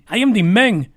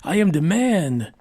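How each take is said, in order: First: It is said in a put-on Spanish accent. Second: It is said in his plain accent.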